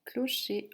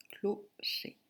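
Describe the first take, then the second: First: Said in the usual way. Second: "Clocher" in two separate beats, clo, cher; syllable by syllable. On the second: Shown as a demonstration. Teacher breaking down "Clocher" for a pupil, said syllable by syllable. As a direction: split "Clocher" with a clear pause between syllables.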